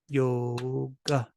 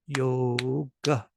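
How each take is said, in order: No difference in how they are said.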